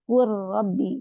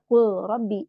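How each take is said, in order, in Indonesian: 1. Huruf L menyatu sepenuhnya ke dalam huruf R. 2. Huruf L diucapkan jelas dan terpisah. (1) "dibaca kul Rabbi" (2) "tidak baca kul Rabbi"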